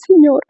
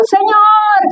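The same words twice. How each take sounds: First: Said in the usual way. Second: Imitated cry to God, high and drawn out; grito de clamor. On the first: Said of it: "¿A poco clamas como yo?". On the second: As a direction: mimic a sudden, high-pitched wail of prayer. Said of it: "de repente oigo el grito". (grito de clamor imitado, agudo y sostenido)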